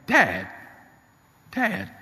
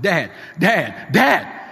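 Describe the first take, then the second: First: Imitating a shaken son, last cry catching higher; a touch of tears, with pauses between cries; tearful, trembling. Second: High, loud panicked cries for Dad; frantic. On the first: Shaken son to his father after the accident, tearful. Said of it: "with a tearful, trembling voice". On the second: Retold or imitated. Son phoning his father after a terrible accident, frantic. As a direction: cry out urgently, climbing higher each time. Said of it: "Stephen called me frantic".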